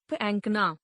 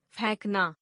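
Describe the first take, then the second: First: Said in the usual way. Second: फेंकना with open "ai" for "e"; mispronounced. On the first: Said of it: "शुद्ध". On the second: Shown as a demonstration. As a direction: say फेंकना as "phainknaa". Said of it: "अशुद्ध".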